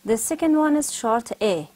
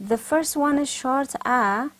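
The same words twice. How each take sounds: First: Short A said like e in men. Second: Short a, open like man. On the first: Teacher to class, slow short e vowel. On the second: Teacher to class, drawling short a slowly. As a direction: open wide for the man vowel. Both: Shown as a demonstration.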